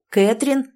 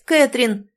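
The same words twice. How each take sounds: First: Rising hopeful call of the name; searching the crowd and spotting her; joyful call. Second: Falling exultant cry of the name, a bit higher; the relief of finding her at last; joyful cry. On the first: Derek spotting Catherine in the crowd, rising joyful call. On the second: Derek calling to found Catherine, falling joyful cry. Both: A narrator's reading. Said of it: "радостный крик Дерека".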